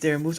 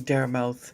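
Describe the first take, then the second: First: The second part has an 'oo' vowel. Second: The second part has an 'ow' vowel. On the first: The speaker calls it right. "My name is Dare Moose" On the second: The speaker calls it wrong. "some people say Dare Mouth, and I feel disappointed"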